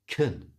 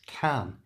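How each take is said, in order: First: The word has a weak, reduced vowel. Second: The word has a full, clear vowel. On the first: The speaker calls it right. "It's pronounced kun" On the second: The speaker calls it wrong. "is not actually pronounced can"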